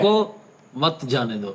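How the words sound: There is a pause right after 'roko'.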